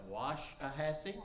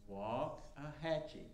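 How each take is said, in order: First: The first syllable sounds like wash. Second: The first syllable sounds like walk. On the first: "I call it" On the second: "simply say walk. Like you walk"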